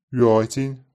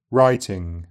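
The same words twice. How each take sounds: First: Writing said "roitin"; Writing with oi vowel and dropped g; Brummie Writing. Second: Said in the usual way. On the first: Shown as a demonstration. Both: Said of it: "the J is normally dropped in I N G endings".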